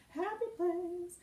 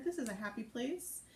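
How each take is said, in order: First: High, drawn-out singsong; singsong chirp. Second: Said in the usual way. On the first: Pretend. Host to viewers after shooing off a nasty commenter, singsong. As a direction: chant it slowly up high, playfully.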